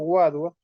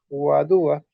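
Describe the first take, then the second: First: The stress is not on the second syllable. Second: The stress is on the second syllable. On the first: The speaker calls it wrong. "hay algunos también yo he escuchado Guadua" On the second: The speaker calls it right. "tiene una tilde en, en la segunda sílaba"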